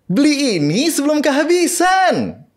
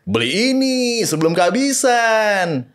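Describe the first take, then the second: First: It is said in a cute, girly voice. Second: It is said in a sporty, casual voice. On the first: It advertises a Barbie-style slime toy. "si slime itu ya ... yang Barbie" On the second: It advertises sporty shoes. "Terus sepatu"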